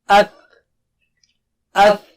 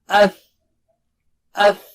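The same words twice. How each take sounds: Both takes have the same delivery.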